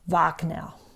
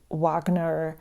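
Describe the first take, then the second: First: The name begins with a V sound. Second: The name begins with an English W sound. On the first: The speaker calls it right. "imagine a V for vase. Wagner. That's how we pronounce it in Germany" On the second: The speaker calls it wrong. "the English pronunciation"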